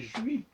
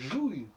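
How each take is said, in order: First: The word ends in a 'wee' sound. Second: The word ends in an 'ooy' sound. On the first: "ça se prononçait Jui" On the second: "ça se prononçait Jouille"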